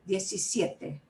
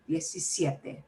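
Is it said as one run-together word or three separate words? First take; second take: one word; one word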